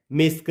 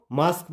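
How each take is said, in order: First: मेस्क with an 'ay' vowel; wrong vowel. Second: मास्क with a long open 'aa'; correct vowel. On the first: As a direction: say मेस्क with 'ay', as the mistaken reading. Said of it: "नहीं". (मेस्क में 'ए' की आवाज़) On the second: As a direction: say मास्क with 'aa', not 'ay'. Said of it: "इसको मास्क पढ़ना है". (मास्क में 'आ' की आवाज़) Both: Shown as a demonstration.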